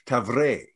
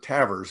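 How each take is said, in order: First: The name is said with a French ending. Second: The name is said to sound like tavern. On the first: The speaker calls it right. "So you would think it would be French" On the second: The speaker calls it wrong. "Tavers is just like tavern or something"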